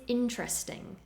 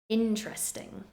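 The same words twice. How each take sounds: No difference in how they are said.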